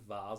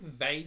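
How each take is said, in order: First: It is said the British way. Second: It is said the American way. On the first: "vase is British" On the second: "vase is American"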